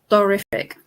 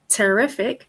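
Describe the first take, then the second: First: The t is said with rounded, O-shaped lips. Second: The t is said with spread, stretched lips. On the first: "make an O shape and say terrific" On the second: "where you see either sides of my mouth kind of stretched"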